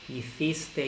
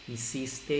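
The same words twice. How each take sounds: First: The c is said with the tongue between the teeth. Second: The c is said as an s sound. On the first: "un español diría" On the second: "y un hispanoamericano"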